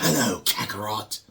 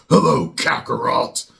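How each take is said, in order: First: It is said in a higher voice. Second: It is said in a deep voice.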